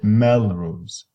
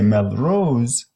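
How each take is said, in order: First: The last vowel is short and unstressed. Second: The last vowel is long and strongly stressed. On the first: The speaker calls it right. "you say Melrose ... becomes shorter because you are blending" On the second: The speaker calls it wrong. "You don't say Melrose"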